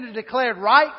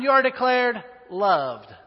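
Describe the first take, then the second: First: Said in the usual way. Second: "you are declared loved" slow, with weight on "loved"; slow and emphatic on "loved"; stress on loved. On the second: Shown as a demonstration. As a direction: lean slowly into the word "loved". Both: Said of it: "but in adoption".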